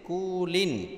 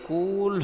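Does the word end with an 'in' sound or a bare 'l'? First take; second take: in sound; bare l. First: The word ends with an added 'in' sound. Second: The word ends on a bare 'l' sound. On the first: The reciter keeps reading on without stopping. "দুই জের লিন কুলিন" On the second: The reciter stops at this word. "থামলে কুল হবে"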